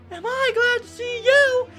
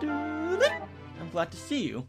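First: It is said in a high-pitched put-on voice. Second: It is said in a normal speaking voice. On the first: The speaker calls it right. "Toad sounded like with a high voice" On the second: The speaker calls it wrong. "I'm sorry. I'm supposed to sound like Toad"

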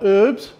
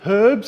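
First: The word begins without any H sound. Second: The word begins with an audible H sound. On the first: "not herbs" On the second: "I said herbs"

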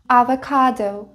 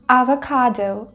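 Both takes have the same delivery.

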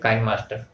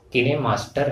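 First: The name begins with the sound 'kine'. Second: The name begins with the sounds 'kee-neh'. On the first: This is how people in India usually say it. "हम Indian लोग इसे काइन master कहते हैं" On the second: This is the official pronunciation used by the makers. "Officially जो है सही उच्चारण जो है इसका किने मास्टर है"

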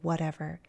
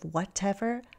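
First: The middle T is flapped, like a D. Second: The middle T is a clear, crisp T. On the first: "I say whatever. It sounds like a D" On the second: "Instead of whatever"

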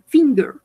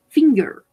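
The two takes are said the same way.

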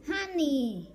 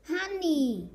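No difference in how they are said.

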